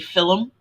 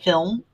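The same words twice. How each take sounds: First: The word is said in an Irish accent. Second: The word is said in a non-Irish accent. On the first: This is how Irish and Northern English people say it. "you and most Irish and Northern English people is that you say film" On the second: This is how other people say it. "instead of"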